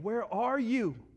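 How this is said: It is said in a worried, searching tone. The caller is anxiously searching for someone they love. "more like the dad that's at the grocery store and he lost his son"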